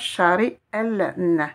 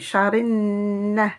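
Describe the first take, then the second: First: An L sound is pronounced before the n. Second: The L is dropped and merges into n. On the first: The speaker calls it wrong. "Je dirais pas chari L, ne" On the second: The speaker calls it right. "mais charin"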